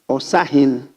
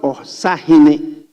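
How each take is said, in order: First: The word ends on a consonant sound. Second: The word ends with an added vowel sound. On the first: The speaker calls it right. "It's Osahin. There is no E hine" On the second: The speaker calls it wrong. "It's not Osahine. It's different pronunciation"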